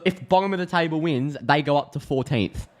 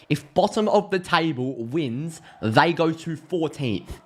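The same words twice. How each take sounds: First: Said in the usual way. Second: Slow, deliberate amazement at the table; slow emphatic repeat. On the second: Real, not acted. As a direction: spell it out slowly for emphasis.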